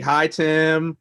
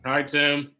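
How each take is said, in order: First: It is said with more energy. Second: It is said with little energy.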